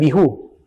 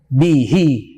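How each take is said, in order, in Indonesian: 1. Kata ini diakhiri vokal 'u'. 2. Kata ini diakhiri vokal 'i'. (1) "bukan bihu" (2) "ketika dibaca kasroh, bihi"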